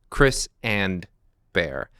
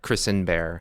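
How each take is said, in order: First: The two names are said apart, as separate. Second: The words run together like one single name. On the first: These are two different people. The speaker calls it right. "Two different people" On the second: This is one person's name. The speaker calls it wrong.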